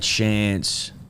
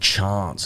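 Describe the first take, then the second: First: It is said in the speaker's plain accent. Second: It is said in a posh King's English accent.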